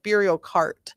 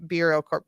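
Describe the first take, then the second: First: Beerio Kart with "kart" as in car, /kɑɹt/; corrected name. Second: Beerio Court said with "court" as in tennis, /kɔɹt/; wrong name. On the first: Vlogger corrects herself, saying Beerio Kart like Mario Kart. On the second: Vlogger misnames the party, saying Beerio Court. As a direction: slip into Beerio Court, rhymes with sport. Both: Shown as a demonstration.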